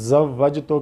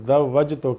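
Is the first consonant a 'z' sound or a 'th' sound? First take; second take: z; th. First: The word begins with a 'z' sound. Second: The word begins with a soft 'th' sound. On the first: The speaker calls it right. "ज़ा की जगह पे" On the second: The speaker calls it wrong. "ज़ाल निकाल रहा है"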